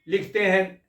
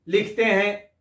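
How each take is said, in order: The two takes are said the same way.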